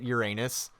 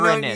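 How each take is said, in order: First: It sounds like the words 'your anus'. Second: It begins with a sound like 'urine'. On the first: This is the common everyday pronunciation. The speaker calls it wrong. "we had to put a butt joke in there because everyone pronounces it Uranus" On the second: This avoids the butt joke. The speaker calls it right. "that sounds like urine"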